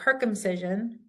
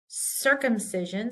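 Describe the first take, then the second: First: The word begins with a hard K sound. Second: The word begins with a soft S sound. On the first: The speaker calls it wrong. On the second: The speaker calls it right. "sounds like an S"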